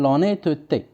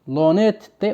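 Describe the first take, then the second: First: لونيتوتي with a schwa between the two t sounds; middle e pronounced. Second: لونيتتي with no vowel between the two t sounds; middle e dropped. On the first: Teacher offering pupils the alternative pronunciation, لونيتوتي with middle e sounded. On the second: Teacher offering pupils one of two pronunciations, لونيتتي without middle e. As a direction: run the t sounds together in لونيتتي, no schwa. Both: Shown as a demonstration. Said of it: "او بيان لونيتوتي".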